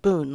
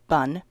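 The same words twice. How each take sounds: First: The vowel is a long 'oo' sound. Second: The vowel is a short 'uh' sound. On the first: "we pronounce it bun, like B-O-O-N" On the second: "It's spelled like bun"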